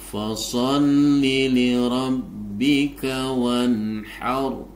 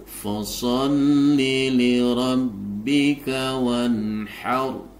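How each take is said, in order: Both takes have the same delivery.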